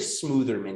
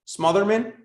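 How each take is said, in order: First: The first syllable rhymes with 'smooth'. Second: The first syllable rhymes with 'mother'. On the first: This is a preferred but likely incorrect pronunciation. The speaker calls it wrong. "I like to pronounce it that way" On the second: This is likely the correct pronunciation. The speaker calls it right. "I think it's the former here"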